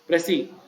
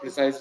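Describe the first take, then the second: First: The word ends with a vowel sound. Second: The word ends with an s sound. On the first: The speaker calls it right. "It is preci" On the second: The speaker calls it wrong. "It's not precise"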